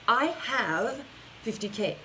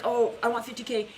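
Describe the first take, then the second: First: Slow, settled claim of having it; owning it. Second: Mock wistful wanting; wishful wanting. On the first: Coach to viewers, slow confident claim. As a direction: say it like it's done. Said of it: "It's accepting you already have it". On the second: Coach to viewers, mock wistful wish. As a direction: sound like you're only hoping. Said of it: "it's not like". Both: Shown as a demonstration.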